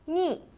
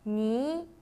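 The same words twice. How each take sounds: First: The pitch falls sharply from high to low. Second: The pitch rises from middle to high.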